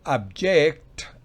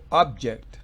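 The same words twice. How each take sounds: First: The stress is on the second syllable. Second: The stress is on the first syllable. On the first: It is the verb, to object. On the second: It is the noun, an object. "es objeto"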